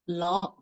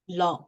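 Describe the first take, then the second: First: The pitch starts low and rises. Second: The pitch falls. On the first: "The fourth" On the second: "The third"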